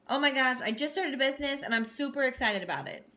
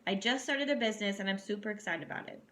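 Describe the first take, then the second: First: It is said with lively, excited energy. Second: It is said flatly, like reading aloud.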